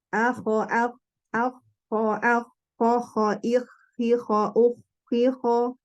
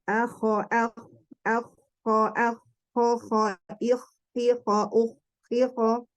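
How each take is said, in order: First: The kh sound has no snoring rasp. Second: The kh sound has a slight snoring rasp. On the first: "Yang kita ambil kalau yang Madinah ya" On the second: "jalur Syam ada ngorok tapi tidak berlebihan"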